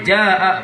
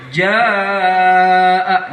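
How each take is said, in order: First: The vowel is cut off after a short length. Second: The vowel is held for four or more beats. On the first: The speaker calls it wrong. "Enggak boleh jaa begitu, enggak boleh" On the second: The speaker calls it right. "Paling tidak empat harokah harus dapat"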